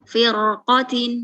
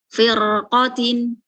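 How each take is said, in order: The two takes are said the same way.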